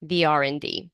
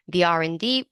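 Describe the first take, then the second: First: "the" said as "thee" before "R and D". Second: Said in the usual way. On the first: Shown as a demonstration. Teacher shows "the" said as "thee" before a vowel. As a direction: say "the" as "thee" because a vowel sound follows. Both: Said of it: "so that's why we say the".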